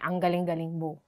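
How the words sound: It is said in a sarcastic tone.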